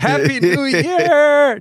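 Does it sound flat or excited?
excited. It is said with happy excitement.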